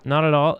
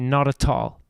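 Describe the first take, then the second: First: It is said the American way, with a flapped T. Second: It is said the Canadian way, with clear T.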